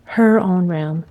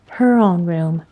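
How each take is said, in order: First: "her" weighted, said slowly in mock concession; "her own room" slow with "her" stressed. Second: "Her" hit harder as a correction; "Her own room" with "Her" stressed to correct. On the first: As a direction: give in slowly, leaning on "her". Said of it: "smarty cat". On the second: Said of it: "Maida corrected". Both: A narrator's reading.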